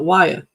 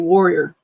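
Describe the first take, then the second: First: It sounds like 'Wyatt', following the spelling. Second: It sounds like 'warrior', the local way. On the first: This follows the spelling. The speaker calls it wrong. "A lot of people call it Wyatt because that's how it's spelled" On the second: This is how locals actually say it. The speaker calls it right. "It's actually warrior"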